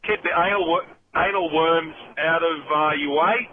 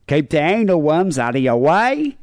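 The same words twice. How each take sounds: First: "keep the anal worms out of your way" ending on a slight upward lilt; caller's natural Aussie rise; rising inflection. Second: Mock Aussie accent, higher, "way" swooping up at the end; slow, exaggerated Aussie upturn on "way"; hammed-up Australian rising inflection on "Keep the anal worms out of your way"; imitating Australian rise. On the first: Real, not acted. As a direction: let "way" rise a little at the end. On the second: Shown as a demonstration. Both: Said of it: "It's the rising inflection".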